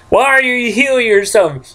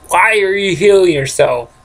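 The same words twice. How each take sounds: First: High, nagging "why are you healing yourself"; mock nagging. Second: Said in the usual way. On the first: Gamer nagging his game character, high mock scolding. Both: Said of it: "Why am I talking like this?".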